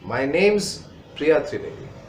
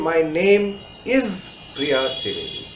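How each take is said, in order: First: The words name and is are contracted together. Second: The words name and is are said separately. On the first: The speaker calls it right. "Use the contraction" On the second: The speaker calls it wrong. "Do not say"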